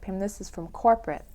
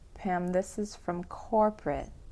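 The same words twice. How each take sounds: First: The phrase is said quickly. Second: The phrase is said slowly. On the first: "and then speed it up" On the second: "You could go as slow as"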